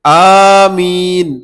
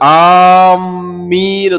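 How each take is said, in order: First: The first vowel is drawn out long. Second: The m sound is doubled and held. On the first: It asks that the prayer be answered. The speaker calls it right. "അലിഫ് നീട്ടിക്കൊണ്ട്" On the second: It means intending or aiming for something. The speaker calls it wrong. "മീമിന് ഷദ്ദ് കൊടുത്തുകൊണ്ട്"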